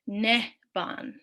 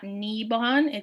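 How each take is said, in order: First: The first vowel is short, like 'eh'. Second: The first vowel is long, like 'ee'. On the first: The speaker calls it right. "it's nehban" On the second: The speaker calls it wrong. "there's only one I, so it's not nibon"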